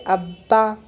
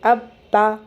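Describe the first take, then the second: First: The two parts are joined into one word. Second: The two parts are said separately with a break. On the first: "जुड़ के जब कैसे पढ़ेंगे" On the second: "अलग से पढ़ना है"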